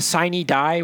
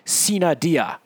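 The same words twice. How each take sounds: First: It is said with an English-style pronunciation. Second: It is said with a Latin-style pronunciation.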